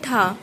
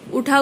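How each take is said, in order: First: The word begins with a consonant sound. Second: The word begins with a vowel sound. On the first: This is the Haryanvi form. "बोलते हैं ठा, तो यहाँ ऊ का लोप हो गया" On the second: This is the standard form. "उठा को"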